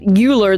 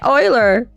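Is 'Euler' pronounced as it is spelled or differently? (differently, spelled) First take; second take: spelled; differently. First: The name is pronounced the way it is spelled. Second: The name is pronounced differently from its spelling. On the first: The speaker calls it wrong. "the way it was spelled" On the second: The speaker calls it right. "He's saying Euler. Just say Euler"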